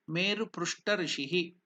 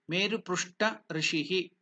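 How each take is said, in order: Both takes have the same delivery.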